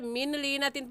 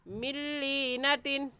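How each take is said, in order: First: The n of min is clearly pronounced. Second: The n is dropped, merging into the l. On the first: The speaker calls it wrong. "पढ़ना गलत है" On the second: The speaker calls it right. "सही है ... जज़म वाले हर्फ को छोड़ देते हैं"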